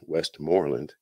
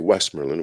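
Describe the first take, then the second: First: It is pronounced the way locals say it. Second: It is pronounced the way outsiders say it. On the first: The speaker calls it right. "we say Westmoreland" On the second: The speaker calls it wrong. "We don't say Westmoreland"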